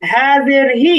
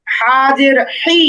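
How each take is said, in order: First: "হা" and "হি" with an easy, simple h; easy light ha. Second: "হা" and "হি" squeezed from mid-throat; slow, throaty Arabic h in "হা জের হি"; mid-throat big ha. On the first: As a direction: say "হা জের হি" without throat constriction. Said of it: "একটু সহজভাবে". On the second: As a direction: push the h of "হি" from the middle of the throat. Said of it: "সেটার উচ্চারণ গলার মাঝখানে নিতে হবে". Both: Shown as a demonstration.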